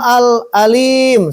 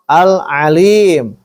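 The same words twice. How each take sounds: First: It begins with a plain glottal stop. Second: It begins with a tight throaty ain sound. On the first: The speaker calls it wrong. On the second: The speaker calls it right. "Allah itu al-alim"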